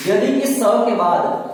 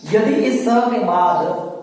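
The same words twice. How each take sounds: The two takes are said the same way.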